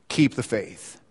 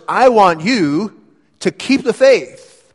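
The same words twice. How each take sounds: First: Low and soft, almost to himself; a soft, lower restatement of Keep the faith; quiet echo. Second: Slow, high and loud, stretching out each word; a preacher's impassioned appeal, drawn out; fervent charge. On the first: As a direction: let the charge settle gently. Preacher repeating the charge softly. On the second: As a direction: plead with Timothy to hold on. Preacher voicing Paul's charge to Timothy. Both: Acted.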